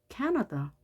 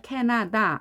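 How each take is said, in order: First: The later vowels are reduced 'uh' sounds. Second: The later vowels are full 'ah' sounds. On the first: "캐너더로 들리죠" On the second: "아로 다 발음을 했지만"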